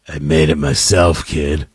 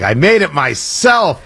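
First: Put-on very low, creepy grown-up to a child. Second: Slow, mock-proud handing over of a treat; proud party host. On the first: Host handing a kid a blood bag, creepy. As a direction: drop right down into a sinister rumble. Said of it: "right amount of creepy in your eye". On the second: Host handing kids a blood bag, mock-proud. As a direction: stretch it out as a mock homemade boast. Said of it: "You hand them the blood bag".

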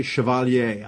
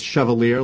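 First: Chevalier said the French way, ending in "yay"; French pronunciation. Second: Chevalier said the English way, ending in "leer"; anglicized pronunciation. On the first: Guest explains how he pronounces the candidate's surname, Chevalier the French way. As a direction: say Chevalier as "shuh-val-YAY". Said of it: "I pronounce it the French way". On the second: Guest unsure of the candidate's surname, offers Chevalier anglicized as "shev-uh-leer". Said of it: "I don't know if it's Chevalier". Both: Shown as a demonstration.

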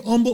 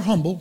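First: "humble" said as "umble"; silent H in "humble". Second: Said in the usual way. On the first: Shown as a demonstration. Preacher offering either pronunciation, "humble" with no H. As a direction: start "humble" straight on the vowel. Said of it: "the H is silent sometimes". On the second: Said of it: "according to how you pronounce it".

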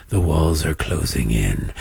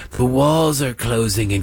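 First: Deep, dark doom-laden pronouncement, pitched far lower; mock TV anchor intoning "The walls are closing in." like a dire prophecy; ominous news pundit. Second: Mock pundit. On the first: Mocking MSNBC hosts to listeners, a dark low doom voice. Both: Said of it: "MSNBC saw ratings dips after years of going".

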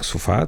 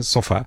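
First: Sofá with the first vowel closed to u, stress on fá; everyday Lisbon sofá, closed u. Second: Sofá with an open ó in the first syllable, stress still on fá; the Cascais tias' sofá, open ó. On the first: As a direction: say "sufá", reduced first vowel. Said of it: "eu digo sofá". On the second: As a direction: say "sófá", first vowel wide open. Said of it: "há pessoas que dizem sofá". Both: Shown as a demonstration.

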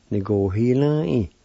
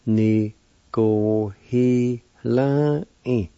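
First: Said in the usual way. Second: Very slow "Ní go hí lá í" with drawn-out syllables. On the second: Shown as a demonstration. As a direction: teach "Ní go hí lá í" one long syllable at a time. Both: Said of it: "it's pronounced like this".

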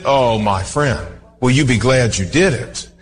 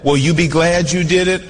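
First: Tender appeal. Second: Said in the usual way. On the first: Acted. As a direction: lean in and plead with a friend.

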